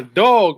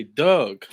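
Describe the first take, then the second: First: Said in the usual way. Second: "Doug" for dog, Baltimore-style, drawn out; Baltimore accent. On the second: Shown as a demonstration. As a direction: say "Doug" with a Baltimore vowel, rhyming with rug. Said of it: "In Baltimore, they say Doug".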